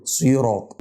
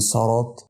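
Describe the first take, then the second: First: "صراط" as siraat, heavy t sounded out; "صراط" with kasra on sad and full taa; clear final taa. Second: "صراط" as saraat, a after the sad; "صراط" misread with fatha for kasra; wrong first vowel. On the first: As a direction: finish "صراط" on a distinct emphatic taa. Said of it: "والطاء بظهرها برضو فبقول صراط". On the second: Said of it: "مش صراط". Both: Shown as a demonstration.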